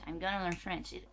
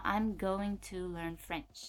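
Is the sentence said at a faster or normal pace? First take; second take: faster; normal. First: The sentence is said quickly, running together. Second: The sentence is said at a normal pace.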